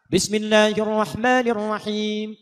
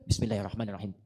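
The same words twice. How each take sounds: First: The phrase is recited aloud in a full voice. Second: The phrase is recited softly, close to the microphone. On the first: "kalau dijaharkan, dibaca keras" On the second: "Ini silent, sir, tapi ditempelkan ke mic"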